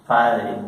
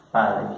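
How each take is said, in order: Both takes have the same delivery.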